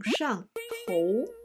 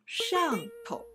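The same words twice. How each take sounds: First: 上头 with 头 full tone and stressed. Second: 上头 with 上 stressed and 头 light and toneless; 头 neutral tone. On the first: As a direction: say 上头, land firmly on 头. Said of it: "头字要重读". (上头，头字重读) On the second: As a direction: say 上头, hit 上 and let 头 drop short. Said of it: "头是轻声". (上头，头读轻声) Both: Shown as a demonstration.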